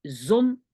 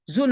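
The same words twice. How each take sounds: First: "zone" as Dutch zon, with a short o; short-vowel word. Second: "Zone" as Dutch zoon, with a long o; long-vowel word. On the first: Teacher names the word for sun, short-vowel demo. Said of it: "c'est le soleil". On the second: Teacher names the word for son, long-vowel demo. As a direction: lengthen the o in "Zone". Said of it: "avec deux O". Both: Shown as a demonstration.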